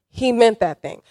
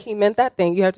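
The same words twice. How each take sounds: First: The phrase is said with strong, forceful emphasis. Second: The phrase is said plainly, without force. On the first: The speaker calls it right. "you have to say it like that" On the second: The speaker calls it wrong. "You can't say"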